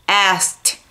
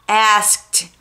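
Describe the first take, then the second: Both takes have the same delivery.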